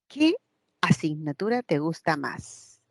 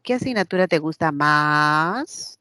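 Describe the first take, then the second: First: The pitch falls at the end. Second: The pitch rises at the end. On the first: The speaker calls it right. "Esta también es hacia abajo" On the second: The speaker calls it wrong. "yo no pregunto"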